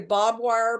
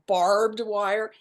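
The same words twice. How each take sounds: First: It is said with a Texan pronunciation. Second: It is said with a standard pronunciation. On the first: It reveals the speaker is from Texas. "that would give it away that I'm from Texas" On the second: It hides where the speaker is from. "so it's pronounced barbed wire"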